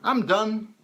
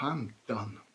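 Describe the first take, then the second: First: It sounds content and optimistic. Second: It sounds defeated and resigned, with a sigh.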